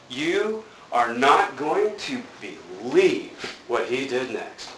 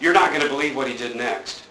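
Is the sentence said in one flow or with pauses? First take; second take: pauses; one flow. First: It is said slowly with pauses between phrases. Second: It is said in one quick flow without pauses.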